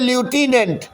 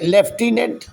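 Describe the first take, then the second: First: It begins with a 'loo' sound. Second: It begins with a 'lef' sound. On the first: This is how the word is written. "लिखते" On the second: This is how the word is actually read. "पढ़ते"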